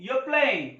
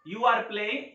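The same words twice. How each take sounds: First: "you are" shrunk to yuh, r silent; stylish contraction. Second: Said in the usual way. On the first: Shown as a demonstration. Teacher contrasts it with the full form, "you are" contracted. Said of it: "तो हम बोलेंगे". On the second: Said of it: "अगर हमें बोलना है".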